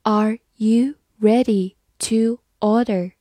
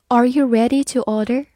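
First: "Are you ready to order?" slowly, word by word; slow reading. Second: Said in the usual way. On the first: Shown as a demonstration. Teacher reads "Are you ready to order?" for learners, slow reading. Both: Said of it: "慢慢来读".

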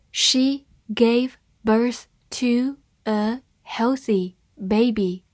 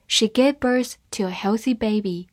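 First: Slow, word by word, each word clear; slow reading. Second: Said in the usual way. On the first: Shown as a demonstration. Teacher reads the sentence slowly to students. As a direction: read it slowly for learners. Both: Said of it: "好，慢慢来读。".

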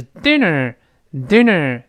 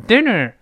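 First: "dinner" ending in a tightly hooked-back "ner"; strongly hooked R. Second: "dinner" ending in an open, half-curled "nar"; wrong weak R. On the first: Teacher gives the correct sound, strongly hooked R. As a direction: pull the tongue hard back at the end of "dinner". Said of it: "强烈的勾回来". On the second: Teacher contrasts the mistake, weak open R. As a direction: say "dinner" as "di-nar", R not hooked back. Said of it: "不是". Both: Shown as a demonstration.

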